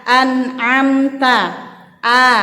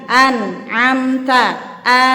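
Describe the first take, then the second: Both takes have the same delivery.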